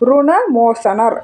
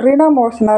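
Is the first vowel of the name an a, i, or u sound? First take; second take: u; i. First: The first syllable has a u vowel. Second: The first syllable has an i vowel. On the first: The speaker calls it right. "தான் சொல்கிறது தான் சரியான முறை" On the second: The speaker calls it wrong. "ரிணமோசனர் அப்படின்ட்டு சொல்லுவாங்க"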